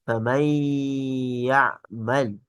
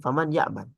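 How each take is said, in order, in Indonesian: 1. Bunyi n menyatu secara sengau dengan kata berikutnya. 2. Bunyi n dibaca jelas sebelum kata berikutnya. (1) "kita baca dengan tajwid ... Dimasukkan ke huruf yang setelahnya" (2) "kalau kita baca biasa"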